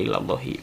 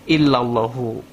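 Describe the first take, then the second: First: The word ends with an i vowel. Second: The word ends with an u vowel. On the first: The speaker calls it wrong. "enggak illallahi" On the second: The speaker calls it right. "dibacanya fil wujudi illallah illallahu"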